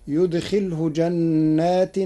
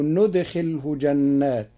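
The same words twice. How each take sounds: First: يدخله said yudkhilhu, starting with y. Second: ندخله said nudkhilhu, starting with n; ندخله with nun. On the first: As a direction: recite يدخله slowly with initial y. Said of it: "قرأ ورش كلمتي يدخله بالنون". (يدخله بالياء) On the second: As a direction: begin ندخله on a clear n. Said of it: "بالنون، فتصير". (ندخله بالنون) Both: Shown as a demonstration.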